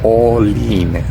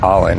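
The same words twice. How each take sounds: First: The name is said with a Spanish pronunciation. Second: The name is said with an English pronunciation. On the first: "In Spanish it's Olin" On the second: "Or maybe in English it's Olin"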